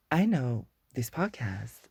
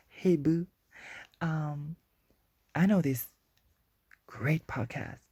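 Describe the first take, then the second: First: Said in the usual way. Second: Hyped fan shout-out. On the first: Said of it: "you don't have to gasp me up". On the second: Pretend. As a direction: hype it up like an eager fan posting. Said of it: "be like".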